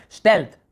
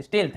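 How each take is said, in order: First: स्टेल्थ, first vowel as in "step". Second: स्टील्थ, first vowel as in "steel". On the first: Teacher settling the vowel for students, स्टेल्थ with "e". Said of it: "ए है ना". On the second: Teacher checking the vowel with students, स्टील्थ with "ee". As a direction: say स्टील्थ with long "ee". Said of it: "स्टील्थ है, क्या है". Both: Shown as a demonstration.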